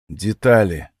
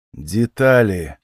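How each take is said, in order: First: Said in the usual way. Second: Slow, insistent repeat of Детали; slowly repeated Детали. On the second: Acted. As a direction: draw out Детали, pressing for details. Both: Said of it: "повторил я".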